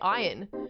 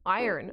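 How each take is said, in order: First: The word is said in a non-American accent. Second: The word is said in an American accent. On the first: The speaker calls it right. "I say iron" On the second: The speaker calls it wrong. "every now and then, iron. ... My little American popped out"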